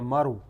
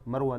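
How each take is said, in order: First: The name ends on the w sound. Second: The name ends with an added a vowel. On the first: The speaker calls it right. "بدون التاء" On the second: The speaker calls it wrong. "مروة ليست مرو"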